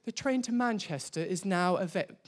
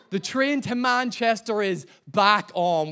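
First: Lightly put-on English announcer accent, quick; attempted English accent. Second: Said in the usual way. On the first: Preacher mimics the Euston announcement, attempted English accent. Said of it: "that's my best English accent". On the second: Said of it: "I'd give up halfway through".

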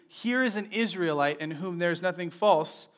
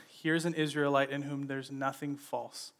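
First: Said in the usual way. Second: Calm, softer and quieter. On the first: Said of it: "Jesus says". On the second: Retold or imitated. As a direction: say it calmly, without offense. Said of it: "He just calmly says".

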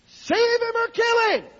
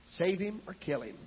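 First: Very high, loud, drawn-out cry; desperate shouted prayer. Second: Soft, restrained plea to God; quiet desperate prayer. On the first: Desperate wife begging God about her husband, slow high shout. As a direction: wail it to heaven in desperation. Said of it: "finally she got so desperate". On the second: Desperate wife on her knees to God, quiet plea. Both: Retold or imitated.

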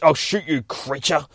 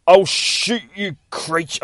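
First: Repeated threat. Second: High, slow, loud threat; panicked threat. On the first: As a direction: say it again more hurried. Doctor repeats his threat. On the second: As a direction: drag it out in fear. Doctor threatens the creature. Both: Acted.

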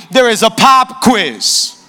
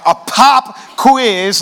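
First: Slow, drawn-out teacher's announcement with the stress on pop; a teacher dropping bad news on the class; strict teacher's announcement. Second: Very slow disbelieving question with the stress on pop; a stunned student repeating the bad news; shocked student. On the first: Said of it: "and the teacher goes". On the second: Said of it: "you're surprised".

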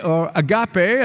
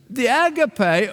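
First: "agape" said AG-uh-pee, stress on the first syllable; "agape" in its English form, AG-uh-pee. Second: "agape" said ah-GAH-pay, three syllables, stress on the middle; "agape" in its Greek form, ah-GAH-pay. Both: Shown as a demonstration. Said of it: "as some pronounce it".

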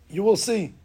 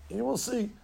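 First: Firm, pointed promise; a knowing teacher's warning; insistent. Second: Softer knowing echo; quiet. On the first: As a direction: rabbi firmly tells the doubting boy you will see, insisting. Rabbi insisting. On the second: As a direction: drop it to a quiet certain murmur. Rabbi repeating, softer. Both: Retold or imitated.

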